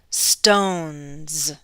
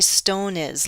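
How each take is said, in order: First: The plural ending adds no extra syllable. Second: The plural ending adds an extra syllable. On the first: The speaker calls it right. "These ones do not add an extra syllable" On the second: The speaker calls it wrong. "Do not say stone is"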